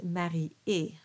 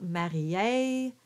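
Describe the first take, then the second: First: "marié" ending on a pure é; no diphthong. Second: "marié" ending in English ay; diphthong ending. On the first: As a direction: end "marié" cleanly, without a glide. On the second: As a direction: glide the end of "marié" to ay. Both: Shown as a demonstration. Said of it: "there's no diphthongs at the end".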